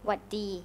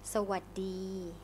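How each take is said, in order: First: The greeting is said with its first syllable dropped. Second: The greeting is said with all three syllables. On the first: It is a casual, informal greeting. "It's shortened to Waddee" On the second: It is the standard greeting. "So hello in Thai is Sawadee"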